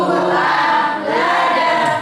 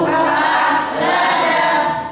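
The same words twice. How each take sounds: No difference in how they are said.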